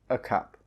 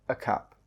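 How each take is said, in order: No difference in how they are said.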